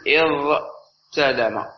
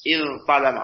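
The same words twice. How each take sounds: First: اضتلم said slowly with a plain T after the ḍād; unassimilated ta. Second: اضطلم with a heavy emphatic Ṭ after the ḍād. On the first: Teacher showing students the wrong form: اضتلم, slow with a plain T. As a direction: draw out اضتلم with a light dental T. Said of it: "سوف تقول". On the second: Teacher giving students the correct form: اضطلم with an emphatic Ṭ. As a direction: make the t in اضطلم thick and emphatic. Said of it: "ثم تقلب التاء طاء". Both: Shown as a demonstration.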